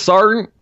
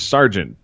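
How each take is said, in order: First: The middle sounds are dropped, sounding like sar. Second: All the middle sounds of the word are said. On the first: "they pronounce it, yes, sergeant, like... you lose all those middle vowels or consonants" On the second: "So the word is sergeant"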